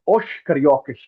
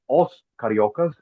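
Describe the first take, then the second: First: The final s sounds like sh, Rio-style. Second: The final s sounds like a plain s.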